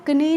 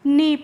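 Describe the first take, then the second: First: The K is sounded at the start. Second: The K is silent at the start. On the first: The speaker calls it wrong. "इसीलिए हम इसको कनी नहीं पढ़ते हैं" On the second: The speaker calls it right. "के silent रहती है"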